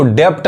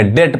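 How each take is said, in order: First: डेप्ट with a p/b stop before T; B sounded. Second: डेट said as "det", no B; silent B. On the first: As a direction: sound the extra consonant in डेप्ट. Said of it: "डेप्ट नहीं कहेंगे". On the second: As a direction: go straight from vowel to T in डेट. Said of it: "डेट पढ़ेंगे". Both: Shown as a demonstration.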